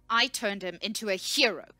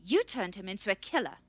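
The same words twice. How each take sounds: First: Loud, angry shout leaning on "I"; shouted, stress on I. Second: Loud, accusing shout leaning on "You"; shouted, stress on YOU. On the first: Researcher squares up to the scout, shouting with "I" stressed. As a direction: shout it, claiming credit with "I". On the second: Researcher accuses the scout, shouting with "You" stressed. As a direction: shout it, throwing blame with "You". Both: A narrator's reading. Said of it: "she shouted".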